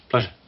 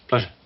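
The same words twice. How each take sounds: No difference in how they are said.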